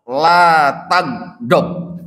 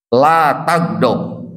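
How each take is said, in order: First: Each syllable drawn out slowly; slow weighty Arabic phrase; slow solemn quote. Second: Slow and deliberate, a touch lower; drawn-out solemn Arabic; slow solemn quote. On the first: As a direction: lay down the command slowly and gravely. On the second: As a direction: repeat the command slowly and gravely. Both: Retold or imitated. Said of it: "dijawab ke Rasulullah".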